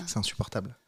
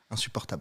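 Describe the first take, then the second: First: Said in the usual way. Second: Insupportable whispered softly, ASMR style. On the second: Shown as a demonstration. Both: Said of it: "parlent comme ça".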